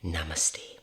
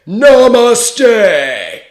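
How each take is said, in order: First: It is said quietly and calmly. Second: It is shouted very loudly.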